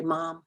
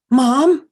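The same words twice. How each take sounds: First: Put-on worried child calling. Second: Higher and much louder call of "Mom?"; worried child calling. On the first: Shown as a demonstration. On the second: Retold or imitated. Son phoning his mother in trouble, a higher louder worried call. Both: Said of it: "just the way they say".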